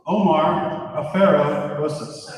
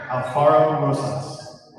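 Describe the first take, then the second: First: Afero said uh-FAIR-oh, with no l; careful first guess, Afero as uh-FAIR-oh; first try at the name. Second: Alfaro said al-FAR-oh, with a clear l; careful corrected reading, Alfaro as al-FAR-oh; corrected name. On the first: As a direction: Afero read slowly as uh-FAIR-oh, l sound left out. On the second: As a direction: Alfaro read slowly, al-FAR-oh, l sounded. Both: Real, not acted. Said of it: "I will get that better next time".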